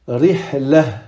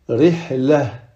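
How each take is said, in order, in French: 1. La dernière lettre se prononce comme un h. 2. La dernière lettre se prononce comme un h.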